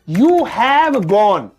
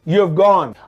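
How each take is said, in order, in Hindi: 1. You और have अलग-अलग शब्दों की तरह बोले जाते हैं। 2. You और have मिलकर एक छोटे शब्द में जुड़ जाते हैं।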